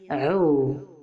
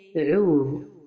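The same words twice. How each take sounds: First: The vowel after the Ain is cut short. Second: The vowel after the Ain is fully lengthened. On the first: The speaker calls it wrong. "ne pas dire" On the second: The speaker calls it right. "la prononciation correcte est"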